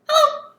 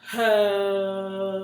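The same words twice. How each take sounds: First: Hello is said very fast. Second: Hello is said very slowly.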